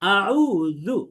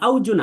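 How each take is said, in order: First: The middle consonant is a soft th-like sound. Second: The middle consonant is a hard z-like sound. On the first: The speaker calls it right. "বরং পড়তে পড়তে হবে আউযু" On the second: The speaker calls it wrong. "আউজু না"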